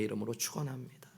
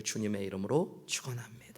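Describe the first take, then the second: First: Said in the usual way. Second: Soft unvoiced blessing; whispered closing blessing to the congregation. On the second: Real, not acted. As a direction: breathe the blessing out.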